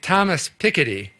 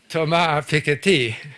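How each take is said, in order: First: The name is said with an American pronunciation. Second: The name is said with a French pronunciation. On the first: The speaker calls it wrong. "in America, we say" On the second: The speaker calls it right.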